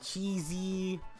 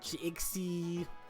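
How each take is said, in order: First: The middle consonant is pronounced as z. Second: The middle consonant is pronounced as ks.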